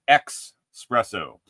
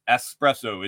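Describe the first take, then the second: First: The first syllable has an x sound, 'ex'. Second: The first syllable has a plain s sound, 'es'. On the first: The speaker calls it wrong. "it's not espresso" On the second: The speaker calls it right. "it's espresso. It's spelled E-S-P-R-E-S-S-O"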